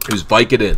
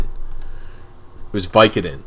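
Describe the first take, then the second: First: Said in the usual way. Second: Slow, dreamy repeat of the word "Vicodin"; slow drawn-out repeat. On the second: Real, not acted. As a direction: stretch every word out, very slow.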